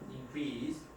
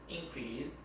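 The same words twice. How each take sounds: First: The stress is on the second syllable. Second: The stress is on the first syllable. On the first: It is used as a verb. "강세가 뒤로 가죠" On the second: It is used as a noun. "명사로 쓸 적에는 앞에"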